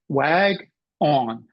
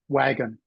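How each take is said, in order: First: The second syllable has a full 'on' vowel. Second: The second syllable has a weak schwa vowel. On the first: The speaker calls it wrong. "I would read it this way. I would read wag on" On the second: The speaker calls it right. "We pronounce this word wagon"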